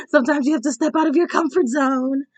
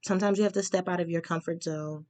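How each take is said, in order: First: High, loud, rallying; forceful call. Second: Said in the usual way. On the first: Shown as a demonstration. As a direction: belt it out like a rally cry. Louder emphatic repeat of the same line.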